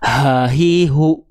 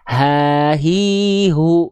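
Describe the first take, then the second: First: The h is pushed from the chest, wasting breath. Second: The h comes from the base of the throat. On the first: The speaker calls it wrong. "Kalau teman-teman melafalkan H besar dari dada" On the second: The speaker calls it right. "dilafalkan dari pangkal, dari pangkal tenggorokan"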